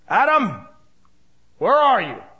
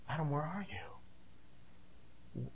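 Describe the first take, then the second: First: It is said harshly, like a commanding sergeant. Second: It is said sadly, like a heartbroken father.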